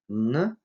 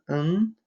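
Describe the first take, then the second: First: "н" as a plain n, tongue tip on upper teeth; dental n. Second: Higher "н", sounded as English ng; velar ng. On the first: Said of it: "кончик языка прижимается к верхним зубам". (зубное «н») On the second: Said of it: "задняя часть языка тесно прижимается". (заднеязычное «н», как ng) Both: Shown as a demonstration.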